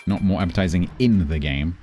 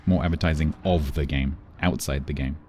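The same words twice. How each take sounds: First: "in" stressed with a rising tune. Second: "of" and "outside" stressed, lower and falling. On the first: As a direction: lean on the word "in" to reject it. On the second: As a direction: correct it by leaning on "of" and "outside". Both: Shown as a demonstration.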